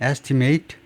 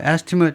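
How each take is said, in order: First: It is pronounced the way the verb is. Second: It is pronounced the way the noun is. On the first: "동사면 estimate" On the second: "명사일 때는 발음이 estimate입니다"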